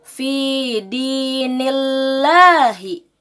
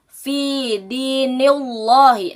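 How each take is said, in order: First: The L of Allah is pronounced thin. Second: The L of Allah is pronounced thick. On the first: The speaker calls it right. "Maka cara bacanya fi dinillahi" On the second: The speaker calls it wrong. "itu adalah cara baca yang salah"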